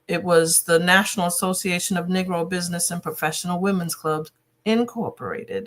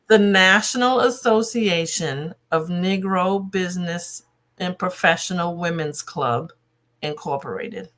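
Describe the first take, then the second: First: It is said at normal conversational speed. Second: It is said slowly and deliberately.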